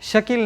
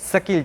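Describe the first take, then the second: First: The name begins with an sh sound. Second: The name begins with an s sound. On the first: The speaker calls it right. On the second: The speaker calls it wrong.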